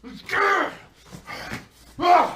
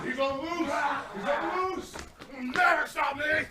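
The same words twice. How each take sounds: First: High hammed-up shriek of "lose"; shrieked falsetto mock chant. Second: "He's gonna lose!" dragged out very slowly, high and softer; a mocked protester moaning in slow falsetto; slow mock wail. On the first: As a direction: snap "He's gonna lose!" out fast and high. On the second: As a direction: stretch every word into a drawn-out high wail. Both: Mocking screaming crowd.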